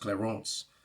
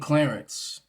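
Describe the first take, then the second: First: The name is pronounced the French way. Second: The name is pronounced the usual English way.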